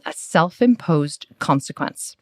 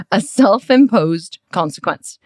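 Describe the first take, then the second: First: Said in the usual way. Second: Louder, higher, slowly spelled-out "self-imposed consequence"; emphatic repeat. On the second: Retold or imitated. Coach repeating it to a puzzled client, slow and emphatic.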